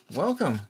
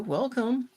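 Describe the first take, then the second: First: Said in the usual way. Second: A bright lilting welcome; high sing-song welcome. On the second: Real, not acted. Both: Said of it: "Hello, Aziru".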